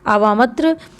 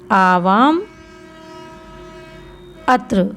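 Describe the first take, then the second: First: The two words are blended into one word. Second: The two words are said separately, not linked. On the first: "ये स्वर इसमें मिल गया तो आवामत्र हो गया" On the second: "अलग अलग भी लिख सकते हैं"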